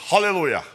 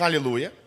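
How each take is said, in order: First: The word begins with an h sound. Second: The word begins directly with a vowel.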